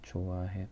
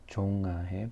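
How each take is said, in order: First: The first syllable has no ng sound. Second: The first syllable ends with an ng sound. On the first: The speaker calls it right. "but 좋아해" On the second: The speaker calls it wrong. "not 종아해"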